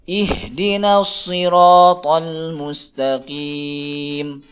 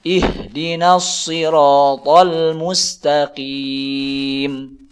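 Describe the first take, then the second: The two takes are said the same way.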